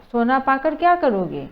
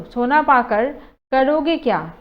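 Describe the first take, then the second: First: Said in the usual way. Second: "क्या" pushed to the end and stressed, said a bit louder; emphatic word order. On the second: Shown as a demonstration. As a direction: lean on the closing "क्या" as a challenge. (अंत में "क्या" पर ज़ोर) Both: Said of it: "जो शब्द एक ही है but आगे पीछे कर दिए गए हैं".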